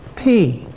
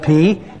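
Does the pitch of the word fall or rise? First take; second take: falls; rises. First: The pitch falls across the word. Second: The pitch rises across the word. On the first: It means an older person. The speaker calls it right. "You got to say that with a falling tone" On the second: It means a ghost or a spirit. The speaker calls it wrong. "If you say it with a rising tone, it means a ghost or a spirit"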